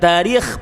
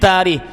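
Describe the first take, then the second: First: The name ends in a raspy throat kh sound. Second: The name ends in a breathy h sound. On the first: The speaker calls it wrong. "Bukan Tarikh pakai kha" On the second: The speaker calls it right. "pakai ha"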